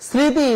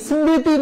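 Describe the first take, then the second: The two takes are said the same way.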